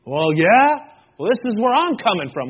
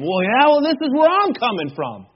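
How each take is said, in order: First: Mock defensive comeback; acted-out insistent rebuttal, first round; argumentative retort. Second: Higher-pitched, mock-heated comeback; exaggerated defensive insistence, pitched right up; escalating retort. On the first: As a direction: butt in to argue your own side. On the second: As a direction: argue back harder, topping the last retort. Acted argument, escalating second retort.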